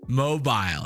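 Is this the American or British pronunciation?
British. It is said with a British pronunciation. "how the British say these words"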